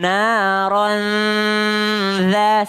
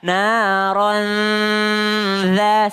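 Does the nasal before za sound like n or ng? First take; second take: n; n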